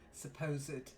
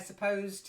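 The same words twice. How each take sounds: First: The -ed ending is said as an extra syllable. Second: The -ed ending adds no extra syllable. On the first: It is used as an adjective. "as an adjective, It's pronounced the e" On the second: It is the past tense of the verb. "the past tense of to suppose"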